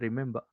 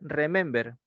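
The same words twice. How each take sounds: First: It is said in a British accent. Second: It is read out exactly as spelled. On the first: "si es británico" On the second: "tal cual está escrito"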